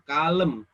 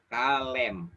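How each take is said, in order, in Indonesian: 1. Vokal kedua adalah bunyi lemah mirip schwa. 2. Vokal kedua adalah bunyi e yang jelas dan terbuka. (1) "kalau misalkan ini kita sebut kalem, nggak mungkin" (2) "Tapi kalem"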